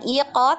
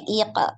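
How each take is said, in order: First: The second syllable has an open, rounded vowel. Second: The second syllable has an 'e' vowel. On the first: The speaker calls it wrong. "jangan iko" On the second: The speaker calls it right. "tapi ike"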